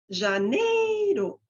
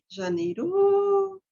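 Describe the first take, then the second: First: The middle syllable is high and shrill. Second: The last syllable is high and shrill. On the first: "Daí eu posso colocar no meio" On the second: "Ou no final"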